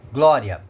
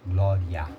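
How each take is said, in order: First: Said in the usual way. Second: "Glória" sounded out low as gló-riA; syllable breakdown. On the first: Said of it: "semivogal I". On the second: Shown as a demonstration. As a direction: separate the syllables of "Glória", letting the final A ring over the weak I. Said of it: "vogal A".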